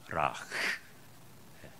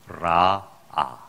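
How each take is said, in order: First: A breathy h sound separates the two vowels. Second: The two vowels run together with no h sound. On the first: The speaker calls it right. "원래는 라흐, 예, 라흐 예, 그렇게 읽어야 돼요" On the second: The speaker calls it wrong. "라아가 아니고"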